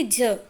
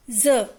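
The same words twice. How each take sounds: First: ज said as a j, like the j in jar; ज as j, not z; plain j sound. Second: ज said as a buzzing z, like the z in zoo; ज as z, not j; nukta sound. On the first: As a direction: say ज as a plain j, no nukta. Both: Shown as a demonstration. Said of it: "न कि ज".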